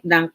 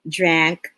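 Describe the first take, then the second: First: The vowel sounds like the u in cup. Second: The vowel sounds like the a in cat. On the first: The speaker calls it wrong. "or else our students will simply hear drink, drunk, drunk" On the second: The speaker calls it right. "to differentiate the A in drank and the U in drunk"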